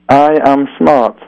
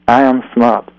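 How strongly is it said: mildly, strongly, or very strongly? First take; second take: very strongly; mildly. First: It is said with the most force. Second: It is said mildly, without much force.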